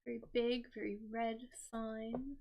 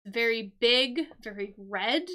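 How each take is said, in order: First: Much softer, almost under the breath; soft repeat. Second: Loud, punchy description; emphatic. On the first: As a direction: echo it quietly to yourself. Repeating the stop sign clue. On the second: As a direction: hit each word big and bold. Describing the stop sign clue. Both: Shown as a demonstration.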